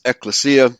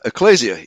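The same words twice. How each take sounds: First: "ecclesia" as ek-luh-SEE-uh; common Greek-style pronunciation. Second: "ecclesia" as ek-LAY-zee-uh; alternative pronunciation. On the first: Host offering one option, "ecclesia" as ek-luh-SEE-uh. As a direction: put the stress on SEE in "ecclesia", with an s sound. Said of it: "it's very commonly pronounced". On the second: Host offering the other option, "ecclesia" as ek-LAY-zee-uh. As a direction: put the stress on LAY in "ecclesia", with a z sound. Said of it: "either way". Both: Shown as a demonstration.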